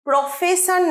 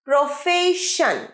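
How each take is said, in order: First: The middle consonant is an s sound. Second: The middle consonant is an sh sound. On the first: The speaker calls it wrong. "ভুল করে অনেক সময় প্রফেশন বলি, প্রফেশন নয়" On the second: The speaker calls it right. "শ, এটা শ, স নয়, আর প্রফে নয় ফেই"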